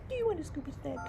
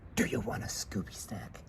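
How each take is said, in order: First: It is said higher and a bit softer. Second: It is said in a low, deep voice. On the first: "with a higher pitch and slightly lower my volume" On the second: "if I use a low Batman voice"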